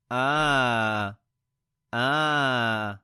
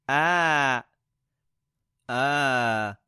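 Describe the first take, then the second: No difference in how they are said.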